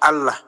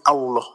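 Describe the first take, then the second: First: The vowels sound like a clear 'a'. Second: The vowels sound rounded, closer to 'o'. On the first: The speaker calls it right. "Itu dia dia nyebutnya itu benar tuh" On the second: The speaker calls it wrong. "Nah, itu yang salah"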